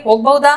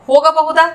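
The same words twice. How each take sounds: First: ಹೋಗಬಹುದಾ squeezed to "hogbauda"; colloquial short form. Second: Said in the usual way. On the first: Shown as a demonstration. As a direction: drop the middle a and the h sound in ಹೋಗಬಹುದಾ. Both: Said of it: "इसको बोलेंगे".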